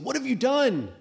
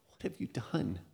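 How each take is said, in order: First: It is said in a harsh, angry tone. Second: It is said in a sad, heartbroken tone. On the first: The speaker is scolding in anger. The speaker calls it wrong. "I don't think it's a" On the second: The speaker grieves over the coming consequences. The speaker calls it right. "more of like a broken heart of a parent"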